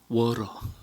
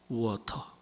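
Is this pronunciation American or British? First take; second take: American; British. First: The t is softened into a flap sound. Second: The t is pronounced as a clear t sound. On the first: The speaker calls it wrong. "왕실에서는 워러 그렇게 말하면 안 된대요" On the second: The speaker calls it right. "철저하게 영국식 발음만 해야 된다는 거예요"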